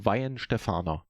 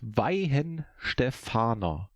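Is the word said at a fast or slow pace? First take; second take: fast; slow. First: The word is said at normal speed. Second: The word is said slowly and deliberately.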